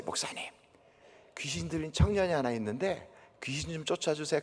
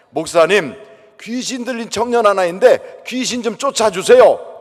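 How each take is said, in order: First: Hushed, secretive asking; quiet request. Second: Asking out loud in front of everyone; loud request. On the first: Missionary sneaking up to ask the pastor, hushed. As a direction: whisper the favour discreetly. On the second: Missionary asking loudly before the congregation, loud. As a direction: call it out boldly so all hear. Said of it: "큰 소리로 그러는 바람에". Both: Retold or imitated.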